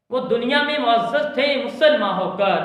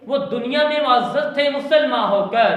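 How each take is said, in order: Both takes have the same delivery.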